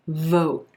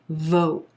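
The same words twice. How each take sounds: First: The vowel is rounded and stretched long. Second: The vowel is rounded and stretched long.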